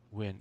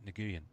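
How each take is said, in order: First: The name starts with a plain W sound. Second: The name starts with a hard G sound. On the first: The speaker calls it right. "I think it probably is" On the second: The speaker calls it wrong. "it's a hard G for me"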